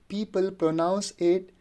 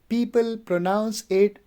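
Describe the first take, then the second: Both takes have the same delivery.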